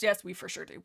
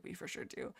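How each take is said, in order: First: Said in the usual way. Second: Whispered aside to herself. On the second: Real, not acted. Streamer confirming to herself in a whisper. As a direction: breathe it as a private whisper.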